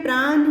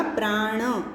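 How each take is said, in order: First: "प्राण" ending in a plain dental n; incorrect form. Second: "प्राण" with a drawn-out retroflex ण; correct pronunciation. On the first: Teacher reads out the misspelt word for students, incorrect form. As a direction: say "प्राण" with an ordinary n, not retroflex. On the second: Teacher gives students the pure word, correct pronunciation. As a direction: curl the tongue back for the ण in "प्राण". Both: Shown as a demonstration. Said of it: "उसका शुद्ध शब्द होगा प्राण".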